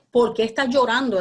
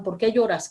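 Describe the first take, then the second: First: "por qué" pushed up and louder, a shaking question; stress on POR QUÉ. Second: Said in the usual way. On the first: Acted. Angels shaking the weeping woman, louder stressed "por qué". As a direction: punch "por qué" to jolt her. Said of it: "era lo que le querían decir". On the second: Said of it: "Los ángeles le preguntaron".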